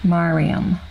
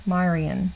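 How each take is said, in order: First: Mariam said as MAH-ree-um, closing on a clear m and spoken louder; firm corrected Mariam, landing on the m; corrected name. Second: Marion said as MAI-ree-un, ending in n, with a questioning rise; tentative Marion, tune lifting at the end; unsure name attempt. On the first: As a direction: settle on Mariam with a louder, confident finish. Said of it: "Hopefully I got it right". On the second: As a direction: try Marion with an unsure upward lilt. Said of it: "Am I saying it right now?". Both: Shown as a demonstration.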